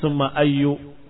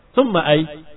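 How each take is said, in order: First: The word ends with a short -u vowel. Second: The word ends with no vowel at all. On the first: The word is treated as annexed to an implied word. The speaker calls it wrong. "dibaca summa ayyu karena takdir mudhaf" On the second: The ending is dropped, avoiding the grammatical question. The speaker calls it right. "kamu sukunkan selamat"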